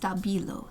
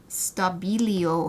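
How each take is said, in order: First: No extra vowel sound follows the L. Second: An extra vowel sound follows the L. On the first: The speaker calls it right. "But no, it's Stabilo" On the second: The speaker calls it wrong. "with an extra I after the L"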